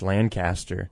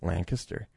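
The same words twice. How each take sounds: First: The name is pronounced the outsider way. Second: The name is pronounced the local way. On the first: The speaker calls it wrong. "I dropped it as Lancaster" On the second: The speaker calls it right. "no, bro, it's Lancaster"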